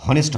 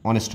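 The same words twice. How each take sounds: First: হনেস্ট with the H sounded; wrong pronunciation. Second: অনেস্ট starting on the vowel, no H; correct pronunciation. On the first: Teacher shows students the wrong reading, H sounded. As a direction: say হনেস্ট with a clear H as the mistake. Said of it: "হনেস্ট হবে না". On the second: Teacher gives students the right reading, silent H. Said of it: "অনেস্ট হবে". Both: Shown as a demonstration.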